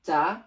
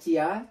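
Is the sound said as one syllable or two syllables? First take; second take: one syllable; two syllables. First: It is said as one merged syllable, cha. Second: It is split into two syllables, chi and ya. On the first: The speaker calls it right. "কিন্তু সেটা না হয়ে সেটা হবে কি" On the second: The speaker calls it wrong. "হওয়ার কথা ছিল এই ছন্দ অনুসারে"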